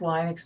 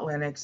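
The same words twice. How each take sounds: First: The first syllable sounds like 'lie'. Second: The first syllable sounds like 'lit'. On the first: The speaker calls it right. "it should be pronounced Linux" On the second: The speaker calls it wrong. "not Linux"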